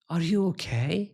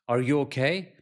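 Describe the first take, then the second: First: It is asked in a calm, curious tone. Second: It is asked in an angry tone.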